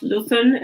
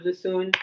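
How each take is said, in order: First: Luthun said the corrected way; correct pronunciation. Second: Luthun said the mistaken way; mispronunciation. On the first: Host correcting the poet's surname, careful right pronunciation of Luthun. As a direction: stress the name Luthun as its owner says it. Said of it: "pronounced Luthun instead of Luthun". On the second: Host showing the mistake in the poet's surname, mispronounced Luthun. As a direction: repeat the earlier slip on the name Luthun. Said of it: "I mispronounced your last name". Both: Shown as a demonstration.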